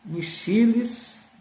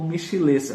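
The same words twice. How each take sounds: First: Michiles slowly, lifted high on the middle syllable; Michiles, stress on CHI. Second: Michilês with the weight on the final syllable; Michilês, stress on LÊS. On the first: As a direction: try out Michiles, stretching mi-CHI-les. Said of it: "não sei se eu tô pronunciando certo". (Michiles devagar, com a tônica no CHI) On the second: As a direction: offer Michilês as the alternative, mi-chi-LÊS. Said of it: "acho que é Michiles". (Michilês com a última sílaba tônica) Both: Shown as a demonstration.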